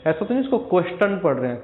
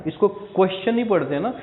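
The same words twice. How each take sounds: First: क्वेश्चन said with a hard t, "kwes-tun"; wrong t sound. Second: क्वेश्चन with a ch sound in the middle; tio as ch. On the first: Teacher showing students the mistake to avoid. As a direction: say क्वेश्चन with a plain t instead of ch. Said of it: "टी नहीं पढ़ते". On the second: Teacher modelling the ch sound for students. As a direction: say क्वेश्चन as "kwes-chun". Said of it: "ये च का sound ले रहा है". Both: Shown as a demonstration.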